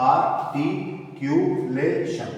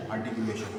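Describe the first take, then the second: First: "आर्टिकुलेशन" drawn out slowly, syllable by syllable; broken into syllables. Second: Said in the usual way. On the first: Shown as a demonstration. Teacher showing students how to read it, "आर्टिकुलेशन" slowly syllable by syllable. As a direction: say "आर्टिकुलेशन" in separate, stretched syllables. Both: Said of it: "इसको कैसे पढ़ना होगा?".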